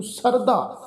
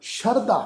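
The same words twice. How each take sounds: First: ਸਰਦਾ with plain s and unaspirated d; the mistaken sarda reading; ਸਰਦਾ said without sh or dh; wrong pronunciation. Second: ਸ਼ਰਧਾ with sh and aspirated dh; ਸ਼ਰਧਾ with a clear sh sound; correct pronunciation. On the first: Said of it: "ਇਸ ਢੰਗ ਨਾਲ ਉਚਾਰਨ ਨਹੀਂ ਕਰਨਾ". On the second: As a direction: say shardha, not sarda. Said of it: "ਸੱਸੇ ਪੈਰ ਬਿੰਦੀ ਲਗਾ ਕੇ". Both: Shown as a demonstration.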